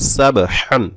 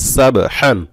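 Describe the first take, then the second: Both takes have the same delivery.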